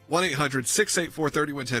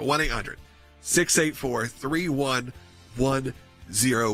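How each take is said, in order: First: The number is said at normal speed. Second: The number is said slowly.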